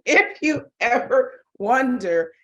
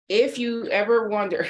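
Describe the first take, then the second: First: Higher, louder and slow, with laughter; laughing emphasis. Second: Said in the usual way. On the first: Real, not acted. Teacher restarting after seeing a colleague's face, laughing emphatically. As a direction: laugh while drawing out each word.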